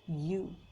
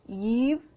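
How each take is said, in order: First: The word is said like 'you'. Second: The word is said like 'Eve'. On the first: The speaker calls it right. "we should pronounce it as you" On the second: The speaker calls it wrong. "We should not pronounce it as Eve"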